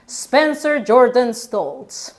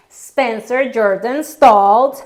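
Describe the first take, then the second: First: Said in the usual way. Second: "Spencer Jordan Stoltz" drawn out slowly and a bit loud; a nervous bride slowly names her groom; slow, careful name. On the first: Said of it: "repeat after her". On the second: Retold or imitated. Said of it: "Then it was my turn".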